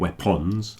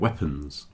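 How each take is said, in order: First: The second syllable has a full, clear vowel. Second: The second syllable shrinks to a short reduced vowel. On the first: The speaker calls it wrong. "Not saying weapons" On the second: The speaker calls it right. "I'm saying weapons. ... the O is contracting a bit"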